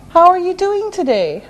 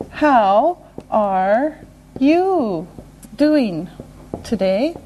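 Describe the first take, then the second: First: Quick, higher-pitched, connected question; natural brisk pace. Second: One word, then a pause; slow and deliberate. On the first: Teacher repeating the question at brisk natural pace. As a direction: run it together conversationally. Same question at faster speed. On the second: Teacher modelling a greeting question, slow and separated. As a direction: break the question into single words. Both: Shown as a demonstration.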